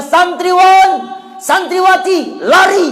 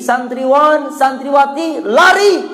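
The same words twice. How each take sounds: First: High, loud call to run; teacher's shout. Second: Retold call. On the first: Retold or imitated. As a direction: shout the order to flee. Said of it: "Dia minta pada santriwan". (teriakan ustadz menyuruh lari) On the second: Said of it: "Kata Ustadz Imam Syafi'i".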